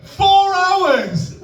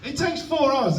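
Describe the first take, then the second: First: Loud, very high incredulous yell; outraged shout. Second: High-pitched comic exasperation; exasperated protest. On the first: Comic at peak of cooking rant, outraged shout. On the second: Comic ranting to audience about cooking, exasperated. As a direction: pitch it up in disbelief. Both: Acted.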